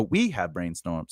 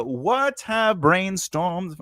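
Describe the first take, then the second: First: Said in the usual way. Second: "what have brainstormed" read high and slow, questioning; halting, puzzled "what have brainstormed"; puzzled misreading. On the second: Real, not acted. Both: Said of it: "See how my dys-, dyslexia".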